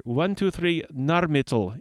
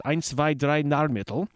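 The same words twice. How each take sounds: First: Said in the usual way. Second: A hammed-up German accent, counting in German; mock German accent, tried on a company name; bad German accent. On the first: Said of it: "let's try with the pronouncer". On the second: Shown as a demonstration. Radio host attempts German company name, bad German accent. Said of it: "a really bad Irish accent by way of Dusseldorf and Berlin".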